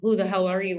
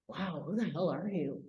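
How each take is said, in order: First: It sounds hostile and confrontational. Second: It sounds curious and full of wonder.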